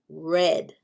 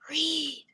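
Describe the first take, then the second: First: The vowel is short, like in 'red'. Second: The vowel is long, like in 'reed'. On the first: It is the past tense. "Which one is for the past?" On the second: It is the present tense. "Which one is for the present?"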